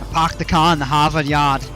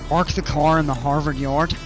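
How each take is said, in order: First: It is said in a Boston accent. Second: It is said in a standard American accent. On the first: "And they say" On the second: "There's a funny saying we use to make fun of people in Boston"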